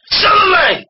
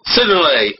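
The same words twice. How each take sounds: First: High, sudden exclamation; dramatic narration. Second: Said in the usual way. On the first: A narrator's reading. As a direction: burst in with suspense, pitched way up. Restarts narration with mock drama.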